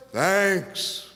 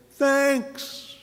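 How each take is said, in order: First: Said in the usual way. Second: High, bright Thanks; everyone's thanks. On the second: A narrator's reading. All the friends thanking together, high bright Thanks. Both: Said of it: "refrain line".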